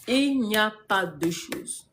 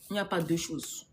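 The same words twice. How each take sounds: First: Drawn out, each word weighted; slow emphatic repeat. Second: Said in the usual way. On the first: Real, not acted. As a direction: hammer it home word by word, very slowly.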